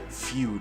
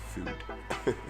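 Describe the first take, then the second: First: The vowel has a 'y' glide before it. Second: The vowel has no 'y' glide before it. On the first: The speaker calls it wrong. "I said feud" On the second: The speaker calls it right. "It's food"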